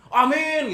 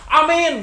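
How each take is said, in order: First: The word is said in a lazy, unenthusiastic way. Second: The word is said in a haughty, arrogant way. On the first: The speaker is not really thankful. "aminnya malas" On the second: The speaker acts superior rather than thankful. "kayak sombong"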